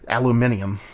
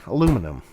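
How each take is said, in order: First: The word is said the British way. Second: The word is said the American way. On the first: "I don't say" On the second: "I say aluminum"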